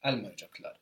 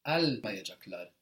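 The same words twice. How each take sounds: First: Almayacaklar stressed on "Al", then quickly trailing away; quick, falling Almayacaklar with the end syllables reduced; tailing off. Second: Heavy stress on the "Al" of Almayacaklar; strong first-syllable emphasis. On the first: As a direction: let everything after the AL of Almayacaklar tumble off. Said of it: "kind of tailing off in speech". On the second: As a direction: punch the start of Almayacaklar, before the "ma". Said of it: "after that strong emphasis". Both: Shown as a demonstration.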